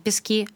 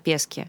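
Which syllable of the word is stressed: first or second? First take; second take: second; first. First: The stress is on the second syllable. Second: The stress is on the first syllable. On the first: This is the ordinary word for sand. The speaker calls it wrong. "Не «Пески»" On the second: This is the name of the coffee shop. The speaker calls it right. "а «Пески»"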